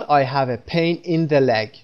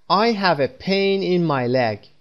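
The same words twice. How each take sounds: First: Very slow, with the leg; wrong example, slow. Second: Very slow and higher, word by word; slow model sentence. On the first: Teacher showing learners the wrong version, slowly. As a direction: read the mistaken version slowly to mark it wrong. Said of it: "به این صورت نمیگیم". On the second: Teacher modelling the correct sentence, very slow and higher. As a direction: lay each word out slowly for learners. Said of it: "من در پاهام احساس درد دارم". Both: Shown as a demonstration.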